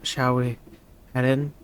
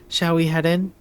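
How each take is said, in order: First: It is said in a shy character voice. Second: It is said in the speaker's own voice.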